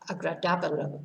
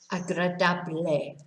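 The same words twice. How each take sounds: First: It is pronounced like the English word agreeable. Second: It is pronounced with Spanish sounds. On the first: The speaker calls it wrong. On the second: The speaker calls it right.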